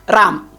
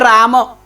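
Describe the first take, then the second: First: The final vowel is dropped. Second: The final vowel is pronounced fully. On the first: The speaker calls it wrong. "That last word is being shallowed" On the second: The speaker calls it right. "They never say Rama"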